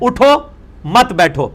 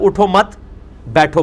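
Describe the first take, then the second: First: The pause comes after 'uttho'. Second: The pause comes after 'mat'.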